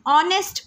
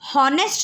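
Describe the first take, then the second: First: The word begins with a vowel, h silent. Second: The word begins with an audible h sound. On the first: The speaker calls it right. "हम इसे ऑनेस्ट पढ़ते हैं" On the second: The speaker calls it wrong. "हम इस word को हॉनेस्ट नहीं पढ़ते हैं"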